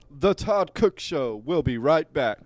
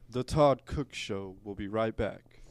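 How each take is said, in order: First: It is said with more enthusiasm. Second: It is said flatly, with little enthusiasm.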